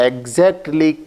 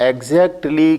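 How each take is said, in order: The two takes are said the same way.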